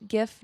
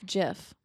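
First: "gif" with a hard G, as in gift; "gif" pronounced with a hard initial G. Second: "gif" with a soft G, as in gem; "gif" pronounced like jiff. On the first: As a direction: say "gif" starting like go. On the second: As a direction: say "gif" starting with a J sound. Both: Shown as a demonstration. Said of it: "that's like pronouncing".

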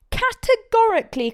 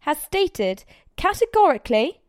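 First: Categorically high and loud; categorically much higher and louder, falling; emphatic repeat. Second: Rising insistence on categorically; firm, pointed categorically; firm emphasis. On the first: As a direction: hammer categorically home. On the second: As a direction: lean on categorically. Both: A narrator's reading. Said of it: "speaking very slowly and firmly".

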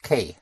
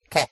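First: K as the English letter name "kay"; K said "kay", the sound to avoid; English glided vowel. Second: Ke as a short "keh"; pure E vowel. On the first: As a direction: glide K into an "ee" at the end. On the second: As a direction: end Ke on "eh", with no glide. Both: Shown as a demonstration. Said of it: "not K".

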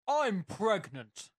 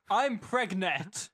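First: "pregnant" drawn out, with its final -ant sounded; pregnant said in full. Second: "pregnant" said as preg-NET, slow and loud; misspelling read literally. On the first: Reading a listener's question, "pregnant" pronounced in full. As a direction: say "pregnant" slowly and higher, ending in -nant. Reads question, word first said correctly. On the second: Mocking a listener's misspelling, "pregnant" as "preg-net". Mocks the misspelt word in question. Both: Acted.

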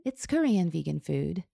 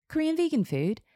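First: Said in the usual way. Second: High-pitched puzzled question; surprised echo. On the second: A narrator's reading. Hairstylist questioning client's cuisine, surprised. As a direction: repeat "Korean vegan food" much higher, as a puzzled question. Stylist echoes answer in surprise.

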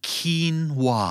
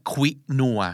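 First: "quinoa" as KEEN-wah, higher then falling; native English pronunciation. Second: "quinoa" as Thai khwi-nua; Thai pronunciation. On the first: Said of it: "เขาจะออกเสียงว่า". (ออกเสียง quinoa แบบเจ้าของภาษา คีนวา) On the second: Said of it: "ภาษาไทย อ่านว่า". (อ่าน quinoa แบบไทยว่า ควินัว) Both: Shown as a demonstration.

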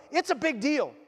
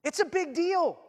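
First: "It's a big deal" said firmly and a bit high; preacher insisting to the congregation, firm; firm emphasis. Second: "It's a big deal" pitched much higher, pressing hard; preacher insisting even harder after a pause, much higher; stronger emphasis. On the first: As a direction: state it plainly and firmly. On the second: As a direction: lift it up and drive it home. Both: Acted. Repeated for emphasis.

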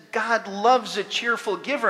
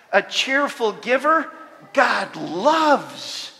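First: Said in the usual way. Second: "A cheerful giver, God loves" with "giver" lifted and "God loves" pressed louder; emphatic Greek order. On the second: Shown as a demonstration. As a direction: stress the reordered words firmly. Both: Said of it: "the Greek makes it a little more emphatic".

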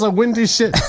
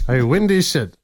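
First: "windy" pitched high to confirm it; stress on WINDY. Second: Said in the usual way. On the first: Real, not acted. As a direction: punch "windy" high, answering the doubt. Did you say windy?.

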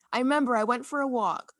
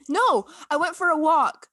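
First: Said in the usual way. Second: Louder, higher burst of remembering; sudden recollection. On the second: Real, not acted. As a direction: blurt it out as it comes back to you. Suddenly remembering what she did.

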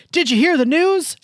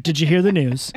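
First: Loud, high call from a window; yelled from a window. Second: Said in the usual way. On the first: Retold or imitated. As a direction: call out to a passerby from afar. Woman yelling from window. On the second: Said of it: "as soon as I heard".

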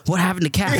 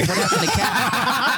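First: Mock worried friends. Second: High, drawn-out laughing question; mock worried question, laughing. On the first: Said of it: "people started calling me and texting me going". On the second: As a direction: repeat it higher and slower through a laugh. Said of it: "texting me going".

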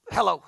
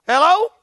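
First: Said in the usual way. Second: 1 rhetorical hello. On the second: Real, not acted.

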